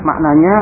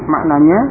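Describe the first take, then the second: Both takes have the same delivery.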